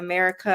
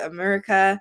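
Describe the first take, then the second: First: The R sound is pronounced clearly. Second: The R sound is distorted. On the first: "instead of saying America" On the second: "I would say America"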